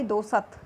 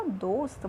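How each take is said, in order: First: दोसत with a full vowel after स, two clear syllables do-sat. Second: दोस्त with half स, one syllable ending in a tight st cluster. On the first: Teacher showing the wrong spelling to the class, do-sat with a full vowel. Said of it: "अगर आप पूरा सै लगाते हैं तो क्या बन जाएगा ये?". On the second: Teacher showing the correct spelling to the class, dost as a tight cluster. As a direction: say दोस्त as dost, no vowel between स and त. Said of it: "आधा सै लगाते हैं तो क्या बन जाएगा?". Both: Shown as a demonstration.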